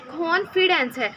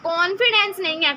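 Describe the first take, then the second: First: कॉन्फिडेंस slowly, with an aspirated kh; slow and careful, breathy kh in कॉन्फिडेंस; correct pronunciation. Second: कॉन्फिडेंस with a plain k, the wrong way; wrong pronunciation. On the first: Teacher slowly modelling the right कॉन्फिडेंस. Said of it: "double ख". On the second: Teacher repeating the common mistake for students. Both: Shown as a demonstration.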